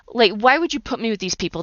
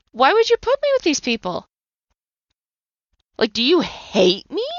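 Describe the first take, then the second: First: Mild reproach; accusing, only a touch raised; retold complaint to God. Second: A desperate accusation flung upward; anguished cry at God. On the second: Retold or imitated. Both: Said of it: "I yelled and I screamed".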